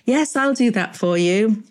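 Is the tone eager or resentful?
eager. It sounds warm and eager to help.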